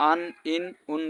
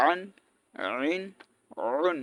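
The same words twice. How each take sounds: First: আন, ইন, উন as plain vowels, no throat squeeze; light glottal start on আন, ইন, উন; mistaken hamza. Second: আন, আইন, উন squeezed from mid-throat, separately; throaty Arabic ayn starting আন, আইন, উন; careful ayn. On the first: Teacher showing a common error, আন, ইন, উন without ayn. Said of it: "বলে, so এটা ভুল". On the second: Teacher modelling careful ayn, আন, আইন, উন from the throat. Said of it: "ভালো করে উচ্চারণ করতে হবে". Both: Shown as a demonstration.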